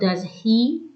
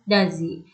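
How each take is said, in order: First: The h sound in 'he' is pronounced. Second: The h sound in 'he' is dropped. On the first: "instead of does he" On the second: "he sound is omitted"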